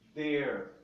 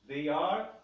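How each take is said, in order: First: It is said as one short contracted syllable. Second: It is said as two separate full words. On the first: "que tem a contração their"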